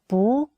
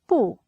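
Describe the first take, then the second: First: The syllable is said with a rising tone. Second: The syllable is said with a sharply falling tone. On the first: "we read 不, the second tone" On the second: "we read 不, the fourth tone"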